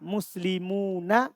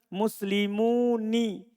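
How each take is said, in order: First: The final nun is said with an a vowel. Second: The final nun is said with an i vowel. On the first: This is the original, standard form. "Tapi asalnya apa? Fathah" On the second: Only a few Arabs say it this way. "ada di sana orang yang membaca apa?"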